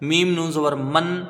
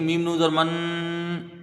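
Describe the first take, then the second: First: The final n is short, without a nasal hum. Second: The final n is held with a nasal hum. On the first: The speaker calls it right. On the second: The speaker calls it wrong.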